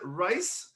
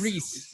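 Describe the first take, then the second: First: The vowel sounds like 'eye', as in rice. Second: The vowel sounds like 'ee', as in geese. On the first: The speaker calls it wrong. "Did I say that correctly? How was my pronunciation?" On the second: The speaker calls it right. "It's Reese"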